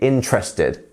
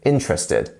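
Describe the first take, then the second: First: The E after the first syllable is dropped. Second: The same.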